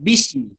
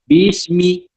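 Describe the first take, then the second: First: The first syllable is said quickly and merged. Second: The first syllable is said slowly and drawn out. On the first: The speaker calls it wrong. "Bukan bismi" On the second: The speaker calls it right. "perlahankan sedikit sebutan huruf B"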